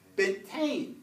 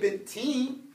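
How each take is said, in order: First: The ending is pronounced with an 'ai' vowel. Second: The ending is pronounced with an 'ee' vowel. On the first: The speaker calls it right. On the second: The speaker calls it wrong.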